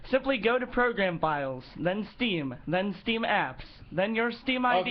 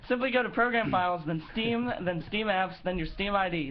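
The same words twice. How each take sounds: First: It is read at a normal pace. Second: It is read at a faster pace. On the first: The speaker calls it wrong. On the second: The speaker calls it right.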